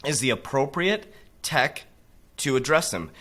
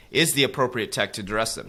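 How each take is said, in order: First: "appropriate" drawn out slowly, weighing each word; slow, deliberate "is the appropriate tech"; slow emphatic reading. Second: Said in the usual way. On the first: Shown as a demonstration. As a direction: read it slow, stressing "appropriate".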